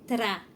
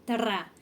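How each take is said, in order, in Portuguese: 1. O r é falado com uma batida rápida da língua. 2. O r é falado com uma batida rápida da língua.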